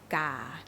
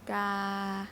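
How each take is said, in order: First: The pitch starts mid and drops slightly lower. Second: The pitch stays level from start to end. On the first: "You start here and you end a little bit lower. Huh? This is low tone" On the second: "I did not go up. Mm, I did not go down. So the sound is the same"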